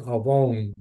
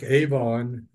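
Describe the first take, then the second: First: "avon" in the Hebrew way, ah-VONE with long O; Hebrew pronunciation. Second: "Avon" sounded as English spelling suggests, AY-von; spelled-out reading. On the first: Preacher teaching the Hebrew word, "avon" said as ah-VONE. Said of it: "in Hebrew it's pronounced". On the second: Preacher contrasting spelling with Hebrew, "Avon" said as AY-von. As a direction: say "Avon" with a long AY at the start, AY-von. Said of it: "it's spelled like Avon, A V O N". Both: Shown as a demonstration.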